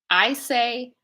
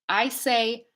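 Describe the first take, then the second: Both takes have the same delivery.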